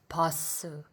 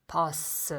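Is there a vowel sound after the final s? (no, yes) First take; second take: yes; yes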